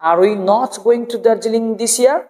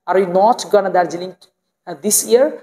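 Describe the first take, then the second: First: 'Going to' is said in full, two words. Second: 'Going to' is reduced to a single 'gonna'.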